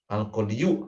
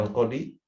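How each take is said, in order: First: Al-qadiyu with a full yu ending sounded out; the should-be reading Al-qadiyu, yu ending spoken clearly; theoretical form. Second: Al-qadi ending on a long plain i, no yu; the way Arabs really say al-qadi, long final i; actual reading. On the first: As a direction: pronounce Al-qadiyu with the final yu fully voiced. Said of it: "Al-qadiyu harusnya begitu". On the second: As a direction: say al-qadi with the bare long i at the end. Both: Shown as a demonstration.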